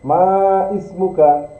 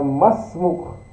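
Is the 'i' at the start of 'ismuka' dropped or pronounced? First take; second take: pronounced; dropped. First: The two words are separate, with the 'i' sounded. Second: The words are joined, and the 'i' is dropped. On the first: This is the underlying original form. "Sebenarnya ma ismuka" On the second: This is how it is actually read in connected speech. "Jadinya masmuk"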